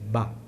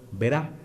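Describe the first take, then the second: First: The word is cut down to one short syllable. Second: The word is said with the final d dropped. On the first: The speaker saves even more effort in extreme cases. "en algunos extremos" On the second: The speaker saves effort in everyday speech. "cuando hablo muchas veces digo"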